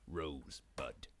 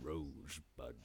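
First: It is said calmly, without emotion. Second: It is said tearfully, with sadness.

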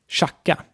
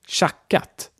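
First: The final T sound is dropped. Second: The final T sound is pronounced.

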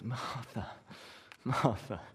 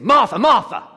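First: It is said in a soft, gentle tone. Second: It is said in a harsh, scolding tone.

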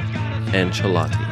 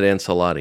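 First: The C is said like 'ch'. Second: The C is said like 's'. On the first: The speaker calls it right. "the C in this man's last name should be pronounced the same way you pronounce the CH" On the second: The speaker calls it wrong. "Why would I say it right?"

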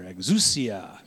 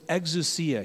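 First: The word sounds like an excited whoosh. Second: The word is said plainly, without a whoosh. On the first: The speaker calls it wrong. "I used to say it wrong, but I liked how I used to say it better. Exousia, to sound like, whew, like a ride" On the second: The speaker calls it right. "But it's exousia"

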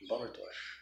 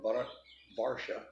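First: It is said with an Indian accent. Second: It is said with an American accent.

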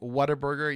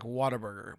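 First: It is said in the speaker's own Oregon accent. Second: It is said imitating an Oklahoma accent. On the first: "I say, like" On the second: "Yours was more like"

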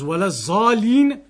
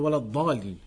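First: The middle consonant sounds like a z. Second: The middle consonant sounds like a heavy d. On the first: The word takes on a different meaning. The speaker calls it wrong. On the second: The word keeps its intended meaning. The speaker calls it right.

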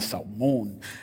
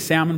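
First: It is said in a gangster-style voice. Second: It is said in a plain voice.

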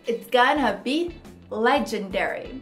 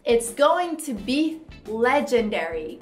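First: Going to is reduced to gonna, spoken quickly. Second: Going to is said in full, unreduced. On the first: "ele fala rápido também, então tem uma contração. O going to fica gonna" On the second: "Só que ele não fala assim"

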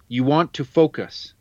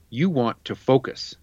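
First: It is said as a rising question. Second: It is said as a falling statement.

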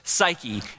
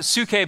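First: The word is given its English pronunciation. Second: The word is given its Greek pronunciation. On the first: "we kind of say it in English" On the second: "in Greek we'd pronounce it psuche"

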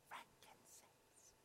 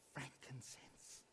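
First: It is said at normal volume. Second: It is said more loudly.

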